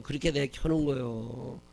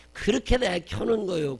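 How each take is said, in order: First: Said in the usual way. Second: Put-on high, loud wailing cry of a fussy baby; mock wailing child. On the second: Preacher imitating the baby crying on the flight, loud and high. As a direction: wail it like the screaming kid on the plane.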